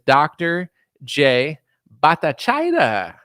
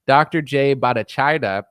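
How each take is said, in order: First: The name is said in a mocking, jokey way. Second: The name is said in a plain, serious way. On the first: The name is being made fun of. "Don't say it like that because that's obviously very disrespectful, but it's also hilarious" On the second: The name is said respectfully. "jokes aside"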